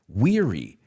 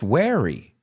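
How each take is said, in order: First: The first syllable does not sound like 'wear'. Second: The first syllable sounds like the word 'wear'. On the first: The speaker calls it right. "It's pronounced weary" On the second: The speaker calls it wrong. "it has the word wear, llevar puesto, but it's not pronounced weary"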